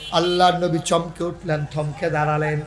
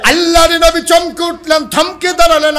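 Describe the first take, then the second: First: Said in the usual way. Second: Loud, high-pitched preacher's cry; high, ringing sermon shout; full-force preaching. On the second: A narrator's reading. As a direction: belt out the narration at the top of the voice.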